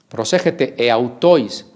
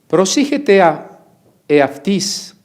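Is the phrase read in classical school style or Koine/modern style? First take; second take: classical; Koine. First: Read with classical school-style vowels and diphthongs. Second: Read with Koine or modern Greek-style vowels. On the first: "Si usted llevó etimologías en la preparatoria" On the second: "intentamos hacerlo en la lengua quiní"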